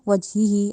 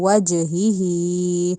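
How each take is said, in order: First: The j sound is said flat, without a bounce. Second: The j sound is said with a bouncing echo. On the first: The speaker calls it wrong. "ऐसे नहीं" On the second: The speaker calls it right. "जीम को हिलाना है"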